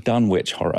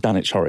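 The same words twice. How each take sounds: First: Dunwich is said with the w pronounced. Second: Dunwich is said with a silent w. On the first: The name is said the way it would be said in New England. The speaker calls it right. "it's the Dunwich Horror" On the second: The name is said the way the English town says it. The speaker calls it wrong. "It's not the Dunwich Horror"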